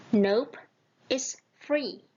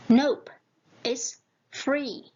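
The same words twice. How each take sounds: The two takes are said the same way.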